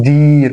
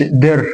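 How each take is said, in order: First: دير with a long held "deeer"; long vowel. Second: در with a short vowel, "derr". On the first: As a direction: stretch the ee in دير as the correction. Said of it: "لا أقول دير". (دير بياء ممدودة) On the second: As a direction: say در short, as the form to avoid. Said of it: "مش هقولش در". (در بحركة قصيرة) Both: Shown as a demonstration.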